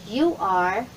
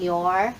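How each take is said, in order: First: YOU ARE as two separate words; full form. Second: YOUR as one syllable, you're; contracted form. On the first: Teacher showing beginners the long form, full form. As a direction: give YOU and ARE a syllable each. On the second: Teacher showing what you are becomes, contracted. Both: Shown as a demonstration.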